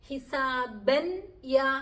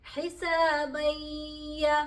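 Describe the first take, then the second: First: The n is pronounced clearly before the y. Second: The n merges partly into y, staying nasal. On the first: The speaker calls it wrong. "എന്നുമല്ല പറയുന്നത്" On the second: The speaker calls it right. "സാക്കിനായ നൂനിന്റെയും തൻവീനിന്റെയും അംശം അവിടെ ഉണ്ട്"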